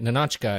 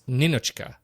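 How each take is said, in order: First: The name is said in an anglicized way. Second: The name is said in the Russian way. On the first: The speaker calls it wrong. "I keep calling it Ninotchka" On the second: The speaker calls it right. "it's Ninochka"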